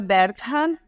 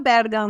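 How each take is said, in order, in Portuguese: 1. O nome é falado com pronúncia alemã. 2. O nome é falado de um jeito simplificado, mais fácil. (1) "o sobrenome pronuncia Bergham" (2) "a gente costuma falar Bergham, né? Para facilitar a vida das pessoas"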